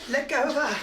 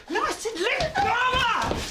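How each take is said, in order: First: Said in the usual way. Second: Much higher, forceful repeated order; insistent demand. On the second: Acted. Neighbour ordering a man to release his partner, insistent demand. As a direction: insist sharply, pitch leaping up.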